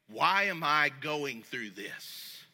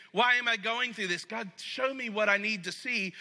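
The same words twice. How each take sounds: First: Slow, lower, quieter, a sulky "Why am I going through this?"; entitled complaint. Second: Humble question. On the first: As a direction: drag it out like you don't deserve this. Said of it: "I'm going". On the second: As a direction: ask humbly, really wanting the answer. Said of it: "I don't say that in a way of saying". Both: Shown as a demonstration.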